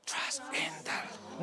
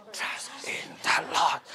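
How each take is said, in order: First: "Trust in the Lord" breathed without voice; whisper. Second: "Trust in the Lord" whispered slowly and lower; proper whisper. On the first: Teacher leading a whispered reading, whisper. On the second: Teacher correcting the class, slow whisper. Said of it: "No, whisper". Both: Shown as a demonstration.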